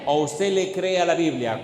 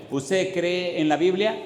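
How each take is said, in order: First: "le cree a" set in contrast, falling end; stress on "le cree a". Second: "cree en" drawn out, rising question; stress on "cree en". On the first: Preacher offers congregation the other choice, stress on "le cree a". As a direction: point up "le cree a" as the alternative. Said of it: "¿Cuál de los dos?". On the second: Preacher questions congregation on belief, stress on "cree en". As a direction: stretch "cree en" slowly, lift into a question. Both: Shown as a demonstration.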